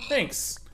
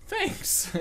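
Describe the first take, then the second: First: Said in the usual way. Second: High, breathy whisper of thanks. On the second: Acted. Thanking the pig again, whispered.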